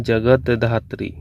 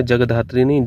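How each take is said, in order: First: जगत धात्री slowly split, ja-gat dhaa-tree, t sounded; correct form. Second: जगधात्री run together as jag-dhaatri, no t; wrong form. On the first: Teacher giving the correct spelling, slow जगत धात्री in two parts. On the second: Teacher rejecting a misspelling, joined-up जगधात्री without the t. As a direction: say जगधात्री as one word, dropping the t. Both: Shown as a demonstration.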